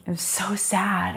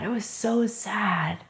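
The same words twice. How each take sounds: First: Breathy whisper, trailing down at the end; whispered sadness. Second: Slow and softer, leaning on so. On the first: Telling the interviewer how sad it was, whispered. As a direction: let it slip out as a sad whisper. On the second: Repeating the sad memory to the interviewer, slow and soft. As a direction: repeat it quietly, drawing it out. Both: Real, not acted.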